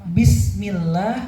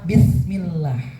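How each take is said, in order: First: The middle consonant is a plain s sound. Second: The middle consonant is a th sound. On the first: It means in the name of God. The speaker calls it right. "bis pakai S, sin ya. ... ini yang benar ya" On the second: It means with the sin of God. The speaker calls it wrong. "Yang kedua, pakai sa"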